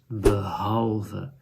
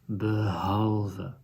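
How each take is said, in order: First: The h sound is voiced. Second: The same.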